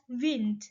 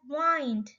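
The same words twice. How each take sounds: First: The word has its modern, present-day pronunciation. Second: The word has its older, past pronunciation. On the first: This is how it is said today. "at the present we pronounce it as wind" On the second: This is how it was said in the past. "was pronounced in the past as wind"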